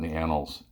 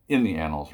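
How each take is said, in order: First: Said in the usual way. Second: IN punched a little louder; stress on IN. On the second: Real, not acted. Speaker corrects his own wording, stressing IN. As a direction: correct yourself by leaning on "in".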